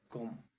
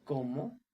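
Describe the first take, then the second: First: ¿Cómo? dropped quieter with a falling end; an answering echo, ¿Cómo? falling away; flat echo. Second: ¿Cómo? said as a question with a rising end; a real question, ¿Cómo? rising up; asking. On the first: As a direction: say ¿Cómo? low and settled, no lift. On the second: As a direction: ask ¿Cómo? openly, voice lifting at the end. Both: Shown as a demonstration. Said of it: "question vs exclamation demo".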